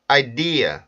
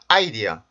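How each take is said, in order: First: The stress is not on the first syllable. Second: The stress is on the first syllable. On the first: The speaker calls it right. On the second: The speaker calls it wrong.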